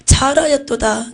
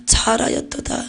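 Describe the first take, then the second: First: Slow, fuller repeat of the praise; slow it down and give it weight; a slow solemn second take of the blessing; solemn voice of Jesus. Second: Soft unvoiced praise; a whispered first take of the blessing; hushed voice of Jesus. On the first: Retold or imitated. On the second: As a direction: say it breathily as a tender blessing. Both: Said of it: "우레와 같기도 했어요".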